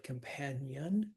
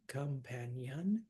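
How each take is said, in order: First: Said in the usual way. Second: "companion" slowly as com-PAN-i-on, four syllables; sounded IO. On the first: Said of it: "Instead of companion". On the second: Shown as a demonstration. Teacher showing an added syllable, "companion" as com-PAN-i-on. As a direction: stretch the io of "companion" into two light syllables. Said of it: "you can use those I O".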